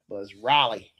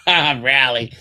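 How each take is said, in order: First: Raleigh said RAH-lee, open ah vowel, falling; correct Raleigh. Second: Raleigh said as RAL-ee, flat a as in cat, falling; wrong Raleigh. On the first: Shown as a demonstration. Correcting viewers on how Raleigh is said, RAH-lee. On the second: Retold or imitated. Echoing the airport guy's wrong Raleigh as RAL-ee. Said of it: "He called it Raleigh".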